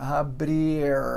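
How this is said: The R sounds very thick. "tem esse R super grosso"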